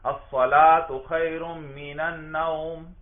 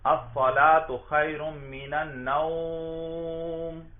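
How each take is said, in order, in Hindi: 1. आखिरी लफ़्ज़ का स्वर छोटा रखा जाता है। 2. आखिरी लफ़्ज़ का स्वर लंबा खींचा जाता है। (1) "वो इस लफ्ज को बड़ा मुख्तसर अदा करेंगे" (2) "खूब लंबा करते हैं"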